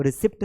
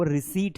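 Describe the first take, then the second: First: "रिसिप्ट" as ri-SIPT, sounded p; wrong pronunciation. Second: "रिसीट" as ri-SEET, p silent; corrected "रिसीट", no p at all; correct pronunciation. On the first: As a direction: say रिसिप्ट with short "i" and final "pt". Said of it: "वो रिसिप्ट नहीं है". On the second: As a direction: say रिसीट with long "ee", straight to t. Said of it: "वो रिसीट है". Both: Shown as a demonstration.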